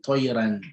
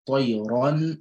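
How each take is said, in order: First: The r is said light, with an empty mouth. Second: The r is said heavy, with a full mouth. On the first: The speaker calls it wrong. "you don't say" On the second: The speaker calls it right. "the ra will be pronounced with a full mouth"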